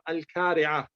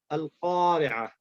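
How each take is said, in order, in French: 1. La consonne est un son k antérieur. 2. La consonne est un son q profond, du fond de la gorge. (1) "il ne faut pas dire Al-Kari'a. C'est c'est pas, c'est pas juste ça" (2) "Il faut dire Al-Qa, Al-Qa, Al-Qari'a"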